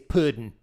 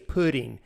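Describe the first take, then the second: First: The word ends with a clipped -in sound. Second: The word ends with a full -ing sound. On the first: This is how ordinary folk say it. The speaker calls it right. "You say puddin'" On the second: This is how self-important people say it. The speaker calls it wrong. "self-important people say pudding"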